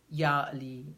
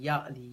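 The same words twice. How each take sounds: First: The phrase is repeated slowly. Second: The phrase is repeated very fast. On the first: The speaker calls it wrong. "But that's too slow" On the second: The speaker calls it right. "say it really fast"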